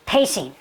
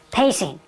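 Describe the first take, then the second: No difference in how they are said.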